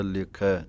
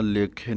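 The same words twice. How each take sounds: First: ਲੇਖੈ ending in an open ai; careful ਲੇਖੈ with ai, not e; double lanv sounded. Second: ਲੇਖੇ ending in a narrow e; misreading ਲੇਖੇ with e for ai; mistaken single lanv. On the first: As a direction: open the last vowel of ਲੇਖੈ wide. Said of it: "ਦੋਵੇਂ ਦਲਾਈਆਂ ਦੀ ਆਵਾਜ਼ ਆਉਣੀ ਚਾਹੀਦੀ ਹੈ". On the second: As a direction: close the last vowel of ਲੇਖੇ to ay. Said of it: "ਲੇਖੇ ਨਹੀਂ ਕਹਿ ਦੇਣਾ". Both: Shown as a demonstration.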